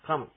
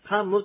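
First: The word ends on a short m, no vowel after. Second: The word ends with a clear mu syllable. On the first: The speaker calls it right. "カにちっちゃい無がつきます。" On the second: The speaker calls it wrong. "カムってはっきり言わないんですね。"

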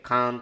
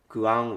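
First: The u vowel is dropped, leaving a long a. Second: The u vowel is pronounced before the a. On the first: This is the Saru dialect form. "猿方言だとクアンは省略されてカーンってなったり" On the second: This is the form used in most other regions. "他の地域だと大体クアンってなる"

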